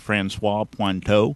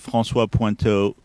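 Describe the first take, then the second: First: The name is said with an American accent. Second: The name is said with a French accent.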